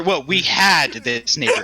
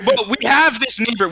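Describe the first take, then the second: First: Slow correction with "had" drawn out; stress on HAD. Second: "have" said lightly higher, imitating the storyteller; mimicked slip on HAVE. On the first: Retold or imitated. Mocking a friend's self-correction, slow stress on "had". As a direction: lean on "had" as a mock correction, lower and slower. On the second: Mocking a friend's storytelling slip, higher on "have". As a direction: quote the slip with "have" pitched up.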